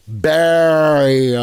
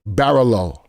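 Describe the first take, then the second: First: The name is said without L sounds. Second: The name is said with L sounds. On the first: The speaker calls it right. "The L's are silent" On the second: The speaker calls it wrong. "Did I say that right?"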